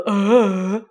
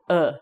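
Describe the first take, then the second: First: The vowel is drawn out. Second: The vowel is said briefly. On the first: The speaker calls it wrong. "That's too long" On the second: The speaker calls it right. "You want to do it in a very short breath"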